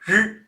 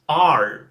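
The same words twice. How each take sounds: First: A Mandarin-style r sound. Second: An English-style r sound. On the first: "that's Chinese" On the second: "try to do the American accent"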